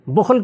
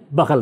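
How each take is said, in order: First: بخل said "bukhl", u after the b; original reading. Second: بخل said "bakhal", with a vowels; misremembered reading. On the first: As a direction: give بخل its u vowel, "bukhl". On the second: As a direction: swap the u of بخل for a. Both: Shown as a demonstration. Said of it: "تلفظ میں تبدیلی آ گئی".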